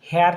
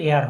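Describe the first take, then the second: First: The word starts with an h sound. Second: The word starts with a vowel sound. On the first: The speaker calls it wrong. "হেয়ার নয় কিন্তু" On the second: The speaker calls it right. "এয়ার হবে"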